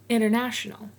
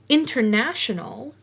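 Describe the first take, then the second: First: The T after the N is dropped entirely. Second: The T after the N is clearly pronounced.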